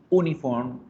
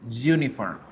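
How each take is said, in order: First: The word begins with a plain vowel sound. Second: The word begins with a y sound. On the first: The speaker calls it wrong. "no la decimos uniform" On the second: The speaker calls it right. "la decimos u, uniform"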